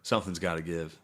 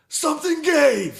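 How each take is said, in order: First: Said in the usual way. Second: Slow, very high, loud triumphant shout; gleeful yell. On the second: Real, not acted. Fan shouts about the big run, gleeful and loud. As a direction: crow it out like a victory cry. Punchline of repeated setup.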